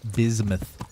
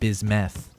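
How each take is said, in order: First: The final syllable sounds like 'muth'. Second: The final syllable sounds like 'meth'. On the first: The speaker calls it right. "He said it's pronounced bismuth" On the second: The speaker calls it wrong. "not bismeth"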